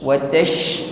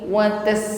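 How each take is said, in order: First: It ends in a broad, spread sh sound. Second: It ends in a thin hissing s sound. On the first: The speaker calls it right. "menyebar di dalam mulut" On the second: The speaker calls it wrong. "bukan seperti ini. Ini huruf sin ya"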